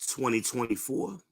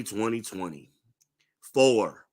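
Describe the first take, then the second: First: Said in the usual way. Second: "twenty twenty-four" slowed right down and leaned on; emphasized year. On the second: Shown as a demonstration. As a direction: stretch out "twenty twenty-four" to drive it home. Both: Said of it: "let me put some emphasis on that".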